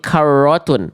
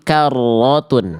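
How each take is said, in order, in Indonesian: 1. Bunyi r-nya punya kesan seperti Eropa. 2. R-nya penuh dan tebal, seperti r Arab. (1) "ro-nya jangan jadi karotun" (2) "tapi karotun"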